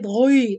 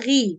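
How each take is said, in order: First: The syllable is pronounced with very heavy sound. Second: The syllable is slightly lightened in heaviness. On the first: The speaker calls it wrong. "The mistakes, don't say it ghi" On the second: The speaker calls it right. "With kasra, ghi"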